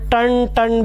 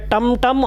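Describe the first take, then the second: First: The syllable ends with an n sound. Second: The syllable ends with an m sound. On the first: "एक बार आधा ण हो जाएगा" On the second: "एक बार तो म हो जाएगा"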